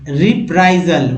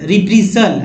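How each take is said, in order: First: The second vowel sounds like 'eye'. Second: The second vowel sounds like 'ee'. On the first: The speaker calls it right. "क्या पढ़ेंगे रिप्राइजल" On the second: The speaker calls it wrong. "लेकिन ऐसे नहीं पढ़ना है"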